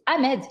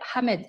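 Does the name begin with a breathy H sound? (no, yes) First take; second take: no; yes. First: The name starts with no H sound. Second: The name starts with an audible H sound. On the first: "on ne prononce pas le H" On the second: "avec le H puisque le H est prononcé"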